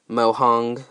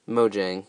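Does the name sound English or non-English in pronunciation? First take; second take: non-English; English. First: The name is said in a non-English way. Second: The name is said in an English way.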